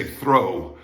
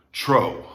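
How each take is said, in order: First: "throw" with a clear th-r; TH-R sound. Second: "tro" with a hard t, no h; plain T-R. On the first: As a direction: stress the TH opening "throw". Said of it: "As you would say throw". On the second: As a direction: say "tro" with T before R. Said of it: "not tro". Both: Shown as a demonstration.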